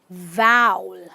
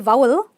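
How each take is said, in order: First: The vowel is a full open 'ow'. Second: The vowel is not a full open 'ow'. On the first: The speaker calls it right. "we say vowel. Ow" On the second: The speaker calls it wrong. "we don't say vowel"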